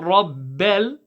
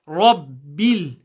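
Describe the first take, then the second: First: The second syllable sounds like 'bell'. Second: The second syllable sounds like 'bill'. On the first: The speaker calls it wrong. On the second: The speaker calls it right.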